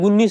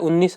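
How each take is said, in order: First: The word begins with a g sound. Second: The word begins with a vowel sound. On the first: The speaker calls it wrong. "अपन गुन्नीस बोलते हैं" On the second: The speaker calls it right. "होता है उन्नीस"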